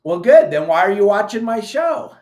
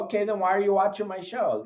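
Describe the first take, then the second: First: Loud retort. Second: Said in the usual way. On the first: Real, not acted. Sarcastic retort to a critic.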